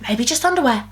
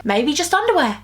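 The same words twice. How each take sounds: First: Said in the usual way. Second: Playful higher take. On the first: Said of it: "repeats it". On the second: Shown as a demonstration. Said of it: "repeats it flatter".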